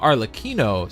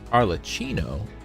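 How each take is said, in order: First: The middle consonant is a hard 'k' sound. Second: The middle consonant is a soft 'ch' sound. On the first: The speaker calls it right. "It's a hard C" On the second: The speaker calls it wrong. "the double C would generally give us like the, the ch sound"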